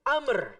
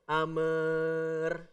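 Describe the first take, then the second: First: The word ends with a sharp, clean stop. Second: The word's ending trails on instead of stopping. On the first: The speaker calls it right. "Kalau ngerem tuh yang ngerem" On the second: The speaker calls it wrong. "Bukan ini ngerem tapi kok kayak ngegas"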